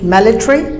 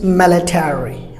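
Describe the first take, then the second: First: The word is said with a British pronunciation. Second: The word is said with an American pronunciation. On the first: "British military" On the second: "Americans military"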